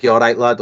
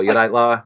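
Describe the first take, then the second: First: "lad" with its final d sounded; full form LAD. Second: "la" with the final d dropped; clipped form LA. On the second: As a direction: shorten "lad" to "la", ending on the open vowel. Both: Shown as a demonstration. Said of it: "we say lad or la".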